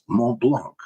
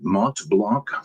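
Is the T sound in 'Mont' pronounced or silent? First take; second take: silent; pronounced. First: The T in the first word is silent. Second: The T in the first word is pronounced. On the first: "the French French pronunciation is Mont Blanc, where the T is silent" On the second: "I'm going to go with my pronunciation"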